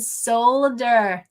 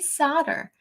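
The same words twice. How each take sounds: First: The L sound is pronounced in the word. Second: The L sound is left out of the word. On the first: "there's an L in solder" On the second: "I say solder. We get rid of that L"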